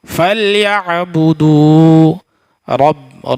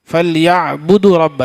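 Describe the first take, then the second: First: فَلْيَعْبُدُوا رَبَّ said evenly and louder; correct careful reading. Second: فَلْيَعْبُدُوا رَبَّ gabbled fast; wrong rushed reading. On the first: Teacher showing students the careful right reading. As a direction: give each sound of فَلْيَعْبُدُوا رَبَّ its full weight. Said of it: "تو کیسے پڑھیں گے". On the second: Teacher showing students a rushed wrong reading. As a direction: rattle off فَلْيَعْبُدُوا رَبَّ much too fast. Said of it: "ایسے نہیں بولیں گے". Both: Shown as a demonstration.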